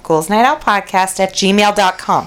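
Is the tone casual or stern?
casual. It is said in a casual tone.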